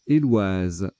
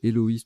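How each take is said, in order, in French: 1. Le 'oi' est une seule syllabe, dite 'wa'. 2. Le 'oi' se dit en deux voyelles, o-i. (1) "c'est Éloise" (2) "j'ai prononcé Héloïse tout à l'heure, mais pas du tout"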